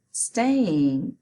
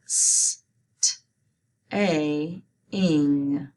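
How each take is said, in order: First: Said in the usual way. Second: "S, t, a, ing" as separate sounds, hissed S and short t; sounding out. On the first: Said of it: "Say it". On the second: Shown as a demonstration. Teacher helping students spell staying, sounding out "S, t, a, ing" separately. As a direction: break "S, t, a, ing" apart sound by sound. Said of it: "Let's spell it".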